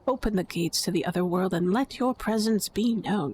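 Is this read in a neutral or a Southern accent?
neutral. It is read in a plain, neutral accent.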